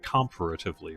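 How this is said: It is said in a British way. "what I would call the British way to say it"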